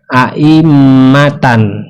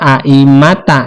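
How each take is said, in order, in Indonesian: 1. Kata ini berakhir dengan bunyi tan. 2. Kata ini berakhir dengan bunyi ta. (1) "seperti ini aimatan" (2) "jangan dibaca aimata"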